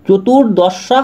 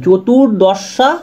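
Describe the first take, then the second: The two takes are said the same way.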